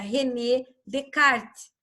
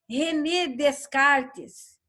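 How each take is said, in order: First: The name is said with French sounds. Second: The name is said with Portuguese sounds. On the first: The speaker calls it right. "mas o nome é francês" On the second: The speaker calls it wrong. "René Descartes não existe, porque ninguém está descartando nada por aqui"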